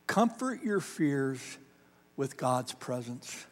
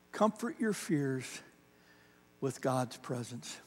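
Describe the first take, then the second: First: Said in the usual way. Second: The same line again, much softer and slow; softer repeat. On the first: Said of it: "pastor repeats line to congregation". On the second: Shown as a demonstration. Pastor hushing the line for the congregation, soft and slow. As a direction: let it sink in, hushed and slow. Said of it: "pastor repeats line, softer".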